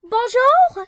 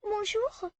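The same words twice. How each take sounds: First: It is said loudly and firmly. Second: It is said softly, like a question.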